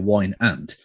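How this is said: Aunt is said with the flat vowel of ant. The speaker calls it wrong. "they pronounce it in America wine ant"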